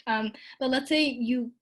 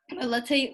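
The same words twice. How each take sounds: First: Said in the usual way. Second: Voice cracking. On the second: Real, not acted. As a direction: voice cracks on the phrase. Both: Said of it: "oh, my voice cracked".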